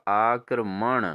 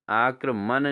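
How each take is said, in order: First: आक्रमण ending in retroflex n; correct pronunciation. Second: आक्रमण ending in plain n; wrong pronunciation. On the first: Teacher corrects students, आक्रमण with retroflex n. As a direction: flap the last n of आक्रमण. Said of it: "अणो होगा". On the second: Teacher shows students the error, आक्रमण with plain n. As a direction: say आक्रमण as "aakraman", dental n. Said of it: "नहीं होगा दोस्तों". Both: Shown as a demonstration.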